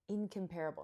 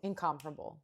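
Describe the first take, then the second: First: "incomparable" said in-com-PAIR-able; "incomparable" with PAIR stressed like compare; wrong stress. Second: "Incomparable" said IN-COM-pa-ra-ble, stress on COM; "Incomparable" with COM stressed, not PAIR; corrected stress. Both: Real, not acted. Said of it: "Nope, that's not the word".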